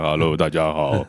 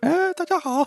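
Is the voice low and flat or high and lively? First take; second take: low, flat; high, lively. First: It is said in a low, flat voice. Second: It is said in a high, lively voice.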